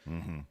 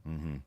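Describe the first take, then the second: The two takes are said the same way.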